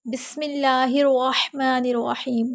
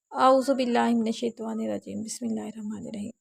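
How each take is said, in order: First: Bold, clear recitation of بسم اللہ الرحمن الرحیم; clear loud recitation. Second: Shy mumbled recitation. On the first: Shown as a demonstration. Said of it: "بلند آواز سے پڑھنا". (بلند آواز سے صاف تلاوت) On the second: Retold or imitated. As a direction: recite it bashfully, swallowing the words. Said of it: "ایسے نہیں پڑھنا". (شرماتے ہوئے دبی آواز میں تلاوت)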